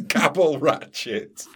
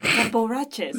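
First: Slow, amused repetition; laughing. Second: Quiet, puzzled echo; puzzled question. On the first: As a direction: savour the odd name with a laugh. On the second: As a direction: repeat it in disbelief. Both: Real, not acted.

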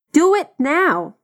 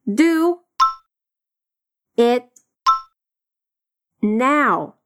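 First: Slow and joined. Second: Do, it, now each alone with pauses; slow separated drill; word by word. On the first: Teacher modelling the joined phrase slowly. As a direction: Do it now whole and very slow. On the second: Teacher drilling Do it now word by word. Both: Shown as a demonstration.

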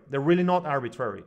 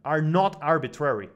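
First: "really" hit hard and falling, quicker pace; fast insistence with weight on "really"; stress on really. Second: "not" pushed with a falling tune; stress on not. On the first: Repeating his point to the host, faster, stressing "really". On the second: Insisting on his point to the host, weight on "not". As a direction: lean on "not" in "are not arbitrary". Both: Shown as a demonstration.

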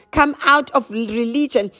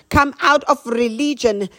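No difference in how they are said.

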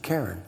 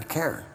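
First: Said in the usual way. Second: Put-on Karen in an American accent, sounding like caring. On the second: The speaker repeats her name in a light American accent. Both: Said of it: "the American accent".

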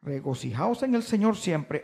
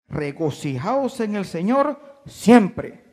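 First: Said in the usual way. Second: Slow, weighty reading of the verse; emphatic reading. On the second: Shown as a demonstration. Preacher reading the verse to the church, slow and weighty. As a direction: read each word slowly with weight. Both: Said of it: "Así se debe leer".

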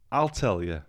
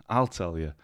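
Both takes have the same delivery.

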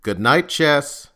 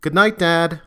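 First: Slow, loud call down the hall. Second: Put-on higher, louder girl's call back; daughter's reply. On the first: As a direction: call it out slowly so she hears. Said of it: "Legacy said in a loud voice". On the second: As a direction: answer back from her room, higher. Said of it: "It forced her to retreat before replying". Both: A narrator's reading.

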